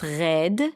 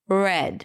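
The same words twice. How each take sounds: First: The R is a strong, throaty sound. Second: The R is softer, close to a W. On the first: "it was really dominant" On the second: "the R sounded a little dirty"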